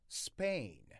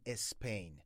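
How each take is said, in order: First: The word starts directly with the s sound. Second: An extra vowel sound comes before the s. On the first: The speaker calls it right. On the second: The speaker calls it wrong. "هیچ وقت نگین اسپین"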